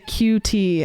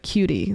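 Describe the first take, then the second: First: It is said as two separate letters. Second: It is said as one smooth word. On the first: "my mom will say Q T" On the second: "you can say it like like Cutie"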